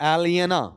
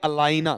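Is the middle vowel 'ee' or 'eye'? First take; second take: ee; eye. First: The name is said as 'el-ee-a-na'. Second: The name is said as 'a-lie-na'. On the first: The speaker calls it right. "ज्यादा अच्छा word एलियना होता है" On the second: The speaker calls it wrong. "एलियना या अलाइना दोनों बोल सकते हैं"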